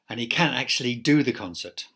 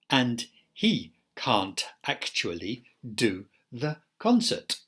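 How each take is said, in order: First: Sounds are heavily squashed and reduced together. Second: Every sound is said fully and separately. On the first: "jungle forms" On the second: "isolated forms where we protect every segment"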